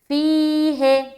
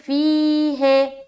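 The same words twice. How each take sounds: Both takes have the same delivery.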